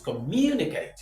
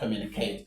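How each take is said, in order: First: The stress is on the second syllable. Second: The stress is not on the second syllable. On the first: The speaker calls it right. "This is the third" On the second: The speaker calls it wrong. "it is not communicate"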